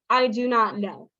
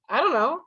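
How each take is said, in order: First: Every word is said fully and separately. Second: The words are heavily reduced, nearly mumbled. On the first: The speaker is formal and proper. "if you are very formal, if you are a gentleman, someone who speaks very properly" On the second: The speaker is very casual. "But then we get even lazier"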